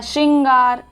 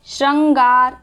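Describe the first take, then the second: First: श्रृंगार said "shringaar"; i sound. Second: श्रृंगार said "shrangaar"; wrong pronunciation. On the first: Teacher showing the right spelling's sound, "shrin" form. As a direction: put an i in the first syllable of श्रृंगार. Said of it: "ई का sound आ रहा है". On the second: Teacher reading out a spelling, "shran" form. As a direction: put an a after shr in श्रृंगार. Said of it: "ये वाला लगता है". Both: Shown as a demonstration.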